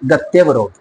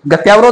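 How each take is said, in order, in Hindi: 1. 'ty' के बाद का स्वर छोटा है। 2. 'ty' के बाद का स्वर लंबा है। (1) "शब्द बनेगा आपका गत्यावरोध" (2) "गत्यावरोध नहीं"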